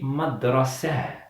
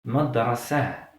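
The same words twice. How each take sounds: First: The word ends softly with an h sound. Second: The same.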